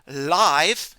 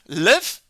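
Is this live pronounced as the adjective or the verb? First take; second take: adjective; verb. First: It is pronounced the way the adjective is. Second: It is pronounced the way the verb is. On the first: It means happening right now. "it's the adjective" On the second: It means to stay or exist somewhere. "it's the verb"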